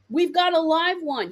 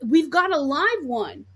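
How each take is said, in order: First: More excited. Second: Excited. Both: Retold or imitated. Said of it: "And you're excited".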